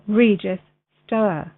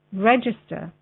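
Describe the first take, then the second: First: "register" said slowly as REE-jis-STORE; altered pronunciation. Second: Said in the usual way. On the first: Shown as a demonstration. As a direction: stretch "register" into REE-jis-stor, long first vowel. Same word repeated, pronounced differently.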